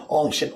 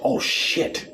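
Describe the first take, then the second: First: A touch of mock alarm; mock surprise. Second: Much higher breathy squeak, a touch louder; mock panic squeak. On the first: Flat-earther realising the dark in a mock yelp. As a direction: exclaim it lightly, as if caught out. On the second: Flat-earther panicking in a high squeaky yelp. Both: Mock quote sunshine person.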